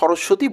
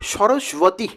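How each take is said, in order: First: The name is said with relaxed everyday pronunciation. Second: The name is said with careful formal pronunciation. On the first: "চলতি ভাষাতে কিন্তু সরস্বতী বলি" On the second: "প্রকৃত উচ্চারণ হচ্ছে"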